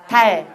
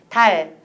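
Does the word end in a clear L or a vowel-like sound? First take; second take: clear L; clear L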